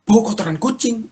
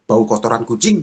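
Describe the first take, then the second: First: High-pitched incredulous question; astonished echo. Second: Said in the usual way. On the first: Retold or imitated. Husband realises wife can smell cat mess, astonished high question. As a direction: echo it back high, suddenly amazed. Husband echoes wife's remark in surprise.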